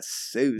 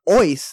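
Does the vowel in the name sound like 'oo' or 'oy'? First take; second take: oo; oy. First: The vowel sounds like oo, American style. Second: The vowel sounds like oy, German style. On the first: This is the Americanized way of saying the name. The speaker calls it wrong. "not Seuss" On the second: This is how the family says the name. The speaker calls it right. "it's like Ois"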